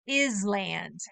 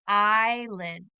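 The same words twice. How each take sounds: First: The S sound is pronounced in the word. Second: The S sound is not pronounced at all. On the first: The speaker calls it wrong. "Many people want to call this island because it does have an I S" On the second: The speaker calls it right. "the S is silent"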